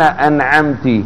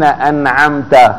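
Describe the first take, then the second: First: The word ends with a short i vowel. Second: The word ends with a short a vowel. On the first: You, addressed as a woman, bestowed favor. The speaker calls it wrong. "هل هي تنعم؟" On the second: You, addressed as a man, bestowed favor. The speaker calls it right. "من المنعم هنا؟ الله تبارك وتعالى"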